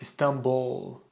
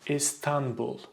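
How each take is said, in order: First: The syllables are stretched, stress on the last. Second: The syllables are short, stress not on the last. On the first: The speaker calls it wrong. "they stretch the syllables and they put so much stress in the last syllable" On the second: The speaker calls it right. "you should pronounce it as Istanbul"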